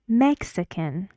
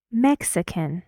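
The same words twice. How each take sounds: The two takes are said the same way.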